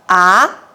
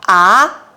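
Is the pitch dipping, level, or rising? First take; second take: rising; rising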